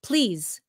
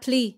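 First: The final consonant sound is clearly pronounced. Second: The final consonant sound is dropped. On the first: The speaker calls it right. "So please" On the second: The speaker calls it wrong. "chị bỏ cái sao, cái âm ở sau"

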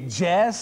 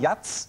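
First: The word is said with English pronunciation. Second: The word is said with a German 'ts' ending.

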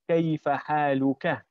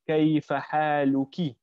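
First: The last word ends in a short a vowel. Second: The last word ends in a short i vowel. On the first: The person addressed is male. "If you're speaking to a male, you're supposed to say" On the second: The person addressed is female. "if you're speaking to a female, you're supposed to say"

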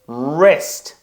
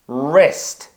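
No difference in how they are said.

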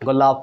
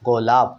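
First: The word ends with an added o vowel. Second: The word ends on a bare p sound. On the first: The speaker calls it wrong. "অ টান আসলে কী হতো? ... ওভাবে উচ্চারণ হয় না" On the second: The speaker calls it right. "পয় শেষে অ টান আসতেছে না"

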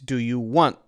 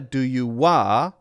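First: The last word ends with a held stop. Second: The last word ends on an open vowel. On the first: The speaker calls it right. "it's stopping, but I'm not hearing the t sound" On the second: The speaker calls it wrong. "it's not a do you wa"

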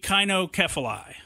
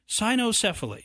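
First: The word begins with a hard K sound. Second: The word begins with a soft S sound. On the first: The speaker calls it right. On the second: The speaker calls it wrong.

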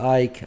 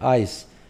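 First: The word ends with a k sound. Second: The word ends with an s sound. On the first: The speaker calls it wrong. "ما نقول آيك" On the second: The speaker calls it right. "إذا نطقها س"

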